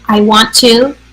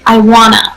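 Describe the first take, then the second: First: Both words of 'want to' are said in full. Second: 'Want to' is reduced to a single word, 'wanna'. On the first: "instead of saying I want to" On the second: "when we're speaking fast, native speakers, a lot of time"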